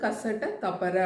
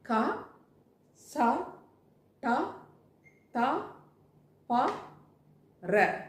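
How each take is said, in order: First: The letters run together quickly. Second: Each letter is said slowly and separately. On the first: "வேகமாக சொல்லும்போது" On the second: "மெதுவாக சொல்லணும்னா"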